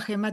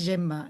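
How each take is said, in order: First: The name is said with Spanish pronunciation. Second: The name is said with Catalan pronunciation. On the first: This is how others sometimes say the name. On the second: This is the name as said at home. "mi nombre en catalán es Gemma"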